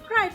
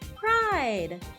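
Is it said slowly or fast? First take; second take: fast; slowly. First: It is said very fast. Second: It is said slowly.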